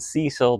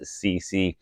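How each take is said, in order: First: The name is said like 'Cecil'. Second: The name is said like 'C C'. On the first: The speaker calls it wrong. "I know it's calling it Cecil" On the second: The speaker calls it right. "I know it is C C"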